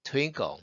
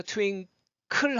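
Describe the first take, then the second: First: "twinkle" ending close to "끄"; dark L ending. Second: "twinkle" ending in a full "클"; breathy wrong ending. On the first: Teacher models holding the breath, "twinkle" ending like "끄". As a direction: hold the breath, finish "twinkle" near "끄". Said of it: "끄에 가깝게 발음이 되죠". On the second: Teacher warns that breath leaks out, overpronounced "twinkle". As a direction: let the breath escape on the "클" of "twinkle". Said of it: "호흡이 많이 빠져나가기 때문에". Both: Shown as a demonstration.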